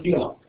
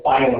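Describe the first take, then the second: First: "phylum" said as FILL-um; short-i pronunciation. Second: "phylum" said as FYE-lum; long-i pronunciation. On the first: Teacher naming the level, "phylum" as FILL-um. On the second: Teacher offering the alternative, "phylum" as FYE-lum. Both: Shown as a demonstration.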